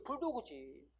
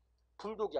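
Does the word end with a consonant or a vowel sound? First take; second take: vowel; consonant. First: The word ends with an added vowel after g. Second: The word ends with a bare k consonant. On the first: The speaker calls it right. "비디지는 뭘로 적어? 부득으로" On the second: The speaker calls it wrong. "불독이 아니라고"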